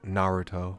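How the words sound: The name is said with an American pronunciation. "as a lot of Americans might say it"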